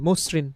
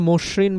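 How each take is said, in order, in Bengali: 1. মধ্যের ব্যঞ্জনটি 's' ধ্বনির মতো শোনায়। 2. মধ্যের ব্যঞ্জনটি 'sh' ধ্বনির মতো শোনায়। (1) "এস এর মতো উচ্চারণ" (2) "আমরা মসৃণ বলি না"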